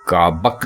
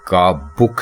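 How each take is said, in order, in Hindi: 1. दूसरा स्वर 'a' की ध्वनि है। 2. दूसरा स्वर 'u' की ध्वनि है। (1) "काबक गलत है" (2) "बे के ऊपर पेश है"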